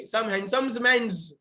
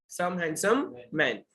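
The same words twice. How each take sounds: First: Slow "handsomes men's" with buzzing S endings; wrong plural endings. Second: Slow "handsome man", no added S sounds; correct singular-sounding endings. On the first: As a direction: stick an extra S on HANDSOMES and MEN'S. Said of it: "ऐसा नहीं बोलना बच्चे लोग". ("handsomes men's" में हर शब्द के अंत में गलत स) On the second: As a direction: say HANDSOME with no S on the end. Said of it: "हम हैंडसम्स नहीं बोलेंगे". ("handsome" के अंत में बिना स के, धीरे) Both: Shown as a demonstration.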